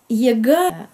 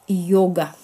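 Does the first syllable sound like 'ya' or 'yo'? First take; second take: ya; yo. First: The first syllable sounds like 'ya'. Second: The first syllable sounds like 'yo'. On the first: The speaker calls it wrong. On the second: The speaker calls it right.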